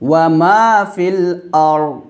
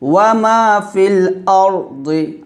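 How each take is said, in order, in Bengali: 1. শেষ শব্দটি খালি ব্যঞ্জনে শেষ হয়। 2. শেষ শব্দটি স্বরে শেষ হয়।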